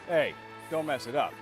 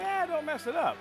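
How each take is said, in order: First: It is said in a threatening, menacing tone. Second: It is said in a casual, relaxed tone.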